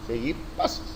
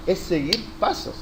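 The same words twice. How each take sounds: First: Whispered echo. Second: Said in the usual way. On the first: Shown as a demonstration. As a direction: repeat it under your breath in a whisper. Soft echo of the phrase.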